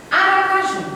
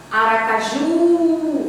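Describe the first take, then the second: First: Said in the usual way. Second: "Aracaju" with a long drawn-out "ju"; calling the word. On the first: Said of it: "aí eu vou ter que chamar a palavra". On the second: Shown as a demonstration. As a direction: hold the final "ju" of "Aracaju", as if calling it. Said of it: "Você demora mais no ju".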